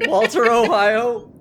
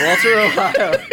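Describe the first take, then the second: First: Slow, laughing Walter Ohio; drawn out through laughter. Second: Laughing loud on Walter Ohio. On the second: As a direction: shout the name while laughing. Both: Real, not acted.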